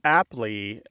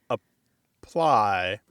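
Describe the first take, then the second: First: It begins with 'app' and ends in 'lee'. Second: It begins with 'uh' and ends in 'ply'. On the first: In the manner of a phone program. "app, L Y is apply" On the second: The ordinary verb meaning to put on. "instead of apply"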